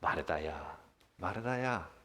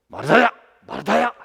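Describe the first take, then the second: First: It sounds warm, gentle and loving. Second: It sounds like a scolding rebuke.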